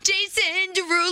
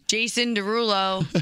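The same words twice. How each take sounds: First: It is said with more excitement. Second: It is said flatly, without excitement.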